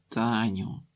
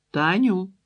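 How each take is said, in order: First: Reproachful. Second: Таню called out loud and high, falling at the end; Ольга calls Таню from the kitchen, Таню rising high and loud; calling out. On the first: Aunt gently rebukes the girl, Таню low reproachful. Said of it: "докірливо мовила сестра". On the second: Mother summoning daughter to supper, Таню loudly called. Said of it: "гукнула Ольга". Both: A narrator's reading.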